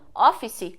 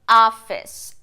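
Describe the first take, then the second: First: It is said with a Brazilian Portuguese accent. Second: It is said with an English accent. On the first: "muitas vezes pronunciada como office aqui" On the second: "But in English you say office"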